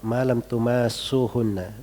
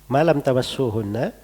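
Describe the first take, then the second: First: The vowel after the m is lengthened. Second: The vowel after the m is short.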